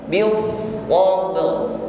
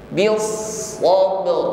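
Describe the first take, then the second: The two takes are said the same way.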